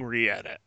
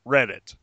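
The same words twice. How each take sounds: First: "re-edit" said as two parts, re plus edit, on purpose; deliberate mispronunciation. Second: "Reddit" said as one word, RED-dit, as a quick correction; plain "Reddit", stress on the first syllable; correct pronunciation. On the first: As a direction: joke "re-edit", stressing a separate "re". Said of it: "calling it re-edit, which I was doing on purpose". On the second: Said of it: "I will now call it by its proper name". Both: Shown as a demonstration.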